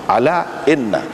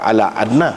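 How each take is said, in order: First: The second word begins with an 'i' vowel. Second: The second word begins with an 'a' vowel. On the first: The speaker calls it right. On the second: The speaker calls it wrong. "bukan ala anna"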